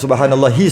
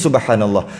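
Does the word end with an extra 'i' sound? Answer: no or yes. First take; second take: yes; no. First: The word ends with an added final i. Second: The word ends cleanly on the h. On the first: The speaker calls it wrong. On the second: The speaker calls it right.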